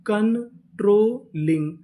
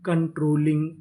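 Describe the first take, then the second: First: controlling drawn out slowly part by part; slow blended word. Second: Said in the usual way. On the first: Shown as a demonstration. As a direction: say controlling slowly, joining the parts. (Controlling धीरे-धीरे जोड़कर) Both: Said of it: "तो पूरी meaning".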